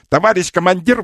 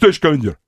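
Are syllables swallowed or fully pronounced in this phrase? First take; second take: fully pronounced; swallowed. First: Every syllable is pronounced fully and clearly. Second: Several syllables are swallowed in quick speech. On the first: The speaker calls it wrong. "вот так не надо" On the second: The speaker calls it right. "надо проедать несколько слогов"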